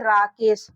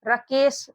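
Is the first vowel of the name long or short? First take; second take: long; short. First: The first vowel is long, as in aa. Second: The first vowel is short, as in a. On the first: The speaker calls it right. "तो इसको क्या पढ़ेंगे? राकेश" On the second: The speaker calls it wrong. "रकेश इसका उच्चारण नहीं होगा।"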